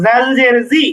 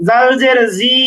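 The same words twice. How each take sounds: First: "জি" kept short, without stretching; short vowel. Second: Wrong take with the final জি stretched long; "জি" held too long; drawn-out vowel. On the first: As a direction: say "জাল জের জি" with a quick final vowel. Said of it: "হরকতের উচ্চারণ তাড়াতাড়ি করতে হয়". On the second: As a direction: drag out the vowel of "জি" as a mistake. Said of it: "এরকম টানছি না কিন্তু". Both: Shown as a demonstration.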